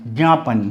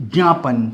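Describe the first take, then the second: First: ज्ञापन said as gyaapan, starting on ग; ज्ञापन with ग sound. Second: ज्ञापन said as jyaapan, starting on ज; ज्ञापन with ज sound. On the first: (ज्ञापन को ग्यापन बोलें, ग की ध्वनि से) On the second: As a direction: say ज्ञापन with ज, not ग. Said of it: "अगर मैं इसको ज्ञ पढ़ता हूँ". (ज्ञापन को ज्यापन बोलें, ज की ध्वनि से) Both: Shown as a demonstration.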